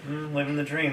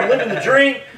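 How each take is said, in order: First: It is said without enthusiasm. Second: It is said with enthusiasm.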